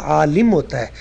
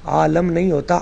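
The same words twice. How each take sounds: First: "عالم" said AA-lim, short i after the l; corrected pronunciation. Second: "عالم" said AA-lam, short a after the l; wrong pronunciation demo. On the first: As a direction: correct it firmly: "عالم" as aalim. ("عالم" لام کے نیچے زیر، آلِم) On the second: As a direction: show the mistake: "عالم" as aalam. ("عالم" لام پر زبر کے ساتھ، آلَم) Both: Shown as a demonstration.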